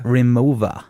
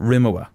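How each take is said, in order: First: The consonant before the last vowel is a V. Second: The consonant before the last vowel is a W. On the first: The speaker calls it right. "The W was a V" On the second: The speaker calls it wrong. "I used to call it Rimowa"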